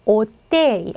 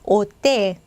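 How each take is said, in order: The two takes are said the same way.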